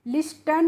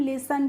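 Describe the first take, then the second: First: The t sound is pronounced in the middle. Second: The t sound is left out entirely. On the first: The speaker calls it wrong. "लिस्टन नहीं पढ़ते हैं इसको friends" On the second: The speaker calls it right. "टी होती है वो क्या होती है? साइलेंट होती है"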